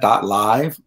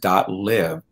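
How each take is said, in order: First: The word live rhymes with hive. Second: The word live rhymes with give. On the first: Some other people say it this way. "some people pronounce that dot live" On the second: It means to live one's life. "we choose to pronounce that domain as dot live"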